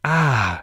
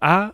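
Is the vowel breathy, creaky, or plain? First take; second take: breathy; plain. First: The vowel is said with a breathy voice. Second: The vowel is said in a plain, normal voice. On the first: "but also breathy voice" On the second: "Normal A, which linguists call modal voice"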